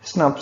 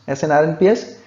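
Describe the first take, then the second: First: The term is said as one short word. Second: The term is spelled out letter by letter. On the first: "it is pronounced as S N O P S" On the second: "the word S N R N P S"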